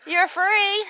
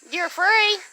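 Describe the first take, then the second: No difference in how they are said.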